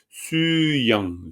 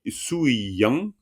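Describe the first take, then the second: First: The first syllable is su with a long u. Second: The first syllable ends in u followed by i. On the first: The usual reading habit. "le ou devient u, et puis c'est un u allongé" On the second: A careful reading form used for practice. "mais pour t'entraîner, sui"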